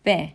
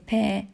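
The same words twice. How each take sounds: First: ب said as a voiced B. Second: ب said as an unvoiced P; voiceless P. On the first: Teacher contrasting voiced and voiceless sounds, voiced B. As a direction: let the vocal cords buzz on ب, as English "b". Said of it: "و ز voiced". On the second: Teacher contrasting voiced and voiceless sounds, voiceless P. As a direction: puff ب out as English "p", no vocal cord vibration. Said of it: "هاي الأصوات س هي voiceless". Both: Shown as a demonstration.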